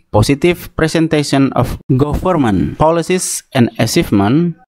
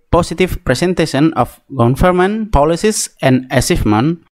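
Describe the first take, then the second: No difference in how they are said.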